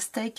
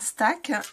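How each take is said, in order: First: The vowel sounds like the 'ay' in say. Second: The vowel sounds like the 'a' in cat. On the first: The speaker calls it wrong. "pas steak" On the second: The speaker calls it right. "je vais le prononcer euh, stack"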